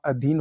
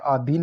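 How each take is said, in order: First: Said in the usual way. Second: अधीन with a long aa at the start; mispronounced अधीन. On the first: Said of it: "अधीन होता है". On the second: Shown as a demonstration. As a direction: say अधीन as "aa-dheen". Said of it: "अधीन नहीं होता".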